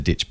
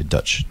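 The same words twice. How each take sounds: First: Said in the usual way. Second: "Dutch" said as the Kiwi version of "ditch", the vowel a short schwa. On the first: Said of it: "I'm doing the Kiwi accent". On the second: Shown as a demonstration. Host showing his co-host the Kiwi "ditch" as Dutch. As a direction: say "Dutch" as a New Zealander says "ditch". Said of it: "I'm doing the Kiwi accent, so".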